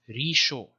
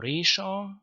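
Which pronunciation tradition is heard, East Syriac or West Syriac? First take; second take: West Syriac; East Syriac. First: It is said with the West Syriac vowels. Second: It is said with the East Syriac vowels. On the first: "In West Syriac it's Risho" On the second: "the word for head, Resha"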